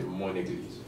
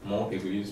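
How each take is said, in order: First: The n is linked to the vowel. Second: The n is not linked to the vowel. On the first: The speaker calls it right. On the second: The speaker calls it wrong.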